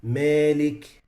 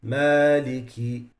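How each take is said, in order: First: Malik with the alif tilted toward ya; wrong Malik with imala. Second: Maliki with a straight open alif; correct Maliki. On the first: Teacher showing students a wrong, tilted Malik. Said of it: "you can't say". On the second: Teacher showing students the right Maliki. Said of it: "It has to be". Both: Shown as a demonstration.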